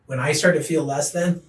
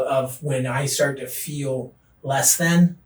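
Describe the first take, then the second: First: Said in the usual way. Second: Slow emphasis. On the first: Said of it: "repeated phrase". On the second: Real, not acted. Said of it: "slow emphatic phrase".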